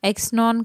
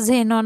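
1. हा शब्द 'ks' आवाजाने सुरू होतो. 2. हा शब्द 'z' आवाजाने सुरू होतो. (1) "बरेच स्टुडंट याचा उच्चार एक्सनॉन करतात" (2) "तर तो झेनॉन आहे"

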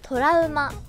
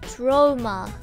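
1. 日本語のカタカナ外来語として発音されています。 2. 英語の発音で言われています。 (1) "トラウマを英語で何て言うでしょう？" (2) "正解は、"

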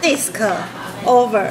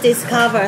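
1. 说成两个词，中间有停顿。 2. 说得很顺，是一个词。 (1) "是disc over" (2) "不是discover"

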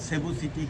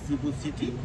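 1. নামটি 's' ধ্বনি দিয়ে শুরু হয়। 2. নামটি 'ch' ধ্বনি দিয়ে শুরু হয়। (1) "কেউ কেউ বলেন সেবু সিটি" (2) "ইংরেজিতে লেখা হয় চিবু সিটি"

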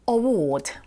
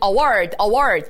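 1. 영국식 발음으로 나요. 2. 미국식 발음으로 나요. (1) "영국 발음" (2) "우리가 너무나 알고 있는 award 이런 발음"

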